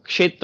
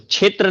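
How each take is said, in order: First: The word begins with a 'ksh' sound. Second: The word begins with a 'chh' sound. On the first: The speaker calls it right. "क्षेत्र होता है" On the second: The speaker calls it wrong. "तो क्षेत्र नहीं होता है"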